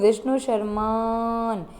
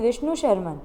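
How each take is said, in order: First: The last 'a' vowel is held very long. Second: The last 'a' vowel is short.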